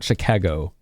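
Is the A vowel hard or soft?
soft. The A vowel is soft, without extra force. The speaker calls it wrong. "It's not Chicago"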